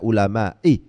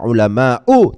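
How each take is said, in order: First: The word ends in an i vowel. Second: The word ends in an u vowel. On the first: The speaker calls it wrong. "tidak ulama'i" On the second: The speaker calls it right. "dibaca ulama'u"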